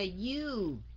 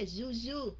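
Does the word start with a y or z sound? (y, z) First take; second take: y; z. First: The word starts with a y sound. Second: The word starts with a z sound. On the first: The speaker calls it right. "mà là you" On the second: The speaker calls it wrong. "có nhiều người cứ đọc là Zuzu, không phải là Zuzu"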